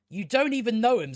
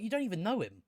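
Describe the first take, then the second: First: Exasperated repeat. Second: Said in the usual way. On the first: Real, not acted. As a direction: push the line out, fed up. Scolding the character, repeated.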